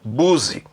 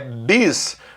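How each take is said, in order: First: The first vowel is a u sound. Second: The first vowel is an i sound. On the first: The speaker calls it wrong. "Não é buzi" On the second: The speaker calls it right. "É bis"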